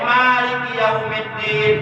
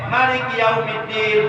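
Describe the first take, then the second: First: The vowel after the m is held long. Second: The vowel after the m is kept short. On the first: The one who holds power on the Day of Judgment. "mimnya boleh dibaca panjang" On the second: The king of the Day of Judgment. "boleh dibaca satu harakat"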